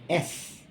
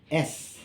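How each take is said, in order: First: The letter is said as its alphabet name. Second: The same.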